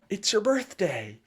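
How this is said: It is said in an excited, enthusiastic tone.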